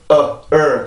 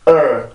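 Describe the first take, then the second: First: The vowel is split into two separate parts. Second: The vowel is said as one single sound. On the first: The speaker calls it wrong. "이렇게 발음을 하지 않고" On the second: The speaker calls it right. "한 번에 er, er 이렇게 발음을 해요"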